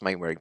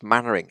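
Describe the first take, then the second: First: The first syllable sounds like 'main'. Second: The first syllable sounds like 'man'. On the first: "do pronounce themselves Mainwaring" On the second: "it's pronounced Mannering"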